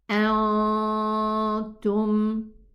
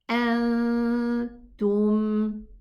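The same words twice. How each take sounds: First: The nasal sound is raised, far back in the mouth. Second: The nasal sound is lowered, near the front teeth. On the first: The speaker calls it wrong. "listen to the this gunna, which is wrong" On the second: The speaker calls it right. "Get it from where the ta is pronounced"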